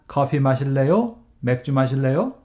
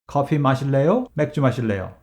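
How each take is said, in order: First: It is said as two separate questions. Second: It is said as one joined question. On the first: The speaker calls it wrong. "It is not ... Which sounds like two sentences" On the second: The speaker calls it right. "You need to say"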